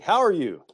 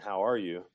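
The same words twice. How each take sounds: First: It is said as an exclamation. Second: It is said as a question.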